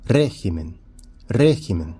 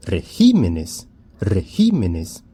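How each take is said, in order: First: "régimen" stressed on RÉ, falling after it; stress on first syllable. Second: "regímenes" slowly, with GÍ stretched and stressed; stress shifted to GÍ. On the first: Teacher models the singular for students, "régimen" stressed on RÉ. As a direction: hit the RÉ of "régimen". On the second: Teacher models the plural for students, "regímenes" stressed on GÍ. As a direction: lean hard on GÍ in "regímenes". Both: Shown as a demonstration. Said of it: "mudou a sílaba tônica do singular".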